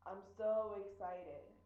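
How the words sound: The voice sounds flat and uninterested. The person is not interested at all. "This person is really not interested nor excited"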